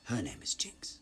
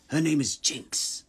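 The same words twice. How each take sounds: First: Restrained, whispery villain voice; a hushed first try, raised in pitch; Silco. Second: Loud, rasping villain outburst; Silco. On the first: Villain correcting the quote, restrained whisper. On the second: Villain declaring her name, forceful raised voice. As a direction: hurl it out high and loud. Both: Acted. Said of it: "A quote from Silco".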